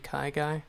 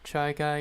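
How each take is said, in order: First: The name begins with a k sound. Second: The name begins with a ch sound. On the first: The speaker calls it right. "but it's actually" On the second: The speaker calls it wrong. "everybody always mispronounces my name"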